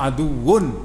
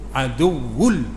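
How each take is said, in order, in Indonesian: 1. Kata ini berakhir dengan bunyi N. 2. Kata ini berakhir dengan bunyi L. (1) "asal aduwun" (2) "tanwin bertemu dengan lam, idgham bila gunah"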